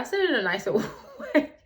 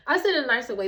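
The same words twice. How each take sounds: First: Laughing. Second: Said in the usual way. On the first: Real, not acted.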